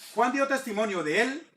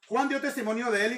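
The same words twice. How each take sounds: First: The words are read slowly. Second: The words are read quickly. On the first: The meaning can be understood. "leyéndolo despacio y con entendimiento" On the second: It sounds like a tongue twister. "Vamos a, a, a decirlo rápido"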